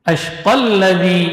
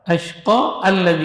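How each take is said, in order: First: The words run together without a glottal stop. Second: A glottal stop separates the two words. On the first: The speaker calls it right. "maka hamzah wasalnya itu ketika itu dihilangkan" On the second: The speaker calls it wrong. "kalau dikasih harokat, ... ini nggak boleh"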